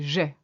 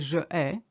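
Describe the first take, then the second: First: The vowel of je is dropped, one syllable. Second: The vowel of je is kept, two vowels clash. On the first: The speaker calls it right. "you say j'ai" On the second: The speaker calls it wrong. "you don't say je ai"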